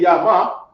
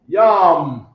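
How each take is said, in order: First: Both letters are sounded with their own vowels. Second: The two letters join with no final vowel. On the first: The speaker calls it wrong. "So you don't say ya ma" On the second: The speaker calls it right. "you say yum"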